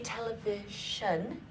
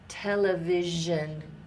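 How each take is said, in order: First: The middle consonant is a voiceless sh sound. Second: The middle consonant is a voiced zh sound. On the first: The speaker calls it wrong. "We don't quite say television" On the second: The speaker calls it right. "Like like television"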